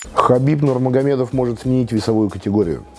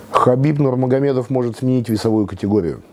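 No difference in how they are said.

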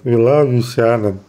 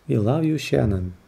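First: It is said in a special put-on voice. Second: It is said in a plain reading voice.

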